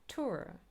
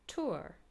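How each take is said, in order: First: The vowel is said in American style. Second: The vowel is said in American style.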